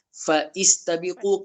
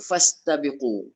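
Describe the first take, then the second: First: A separate 'i' vowel is sounded after 'fa'. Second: 'Fa' runs straight into 'sta' with no vowel. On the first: The speaker calls it wrong. "hamzah wasal tu kita sebut lagi tak bunyinya?" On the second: The speaker calls it right. "Dah tak fungsinya"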